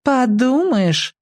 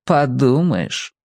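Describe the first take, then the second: First: Put-on high, drawn-out girlish scoff; dismissive girl. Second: Said in the usual way. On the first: A narrator's reading. Skinny girl brushing off the boy's jump, dismissively. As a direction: stretch it out high and disdainful. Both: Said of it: "девчонки всегда говорят".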